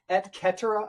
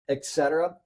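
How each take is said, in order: First: The C in cetera is a hard K. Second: The C in cetera is a soft S. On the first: The speaker calls it right. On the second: The speaker calls it wrong.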